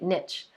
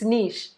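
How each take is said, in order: First: The word is said in an English way. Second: The word is said in a French way. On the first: The speaker calls it wrong. "some of you have been calling it niche" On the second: The speaker calls it right. "I'm in France, so we're going to say it correctly"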